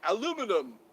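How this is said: It is said the everyday American way. "But we say aluminum"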